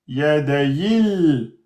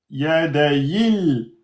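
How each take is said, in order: Both takes have the same delivery.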